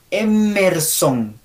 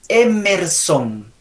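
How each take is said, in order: No difference in how they are said.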